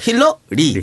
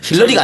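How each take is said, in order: First: There is a short break before the last syllable. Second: It is said as one word without a break. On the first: It means a healer plus a family name. The speaker calls it right. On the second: It is the name of a foreign politician. The speaker calls it wrong.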